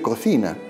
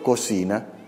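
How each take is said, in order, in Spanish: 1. La 'c' se pronuncia con sonido de 'th'. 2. La 'c' se pronuncia con sonido de 's'. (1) "Deberíamos decir cocina" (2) "Por ejemplo"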